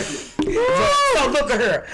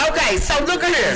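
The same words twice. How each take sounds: First: Very slow, each word stretched; slow drawn-out. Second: Said in the usual way. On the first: Real, not acted. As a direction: drag out So look at here for effect. Repeats phrase, second drawn out.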